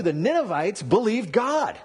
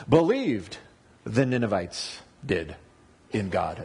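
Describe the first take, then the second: First: Said in the usual way. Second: Believed fronted and stressed, rest falling away. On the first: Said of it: "the word believed is the first word". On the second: Shown as a demonstration. Pastor showing Hebrew word order, stressing Believed first. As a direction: lead with Believed, then let the rest drop. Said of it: "That's really important".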